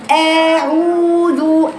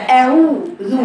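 First: أعوذ with the first أ stretched very slow like a long vowel; wrong lengthened hamza. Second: أعوذ with a quick clipped glottal أ, no stretch; correct short hamza. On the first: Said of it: "مد الهمزة حركتين كأنها مد بدل". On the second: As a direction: cut the أ of أعوذ short and crisp. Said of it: "هي همزة قطع". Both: Shown as a demonstration.

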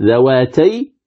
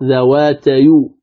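First: Said in the usual way. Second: ذواتيو drawn out, ending in a short "yu"; vowel transfer. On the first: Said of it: "كانت ذواتي". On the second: Shown as a demonstration. Teacher showing what the word becomes, vowel transferred in ذواتيو. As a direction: slowly glide ذواتي into a final "yu" sound in ذواتيو. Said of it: "صارت ذواتيو".

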